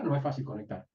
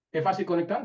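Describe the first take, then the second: First: "No es fácil conectar" falling, lower and softer, "No" stressed; answering flatly. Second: Rising question on "¿Es fácil conectar?", "fácil" lifted; asking question. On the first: Teacher answers her own question, low falling close. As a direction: settle the answer down on "No". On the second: Teacher asks the class, rising question. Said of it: "¿Es fácil conectar o es difícil conectar?". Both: Shown as a demonstration.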